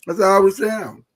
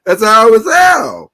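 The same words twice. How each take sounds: First: Said in the usual way. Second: Slow and shouted; loud. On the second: Shown as a demonstration. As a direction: belt it out slowly.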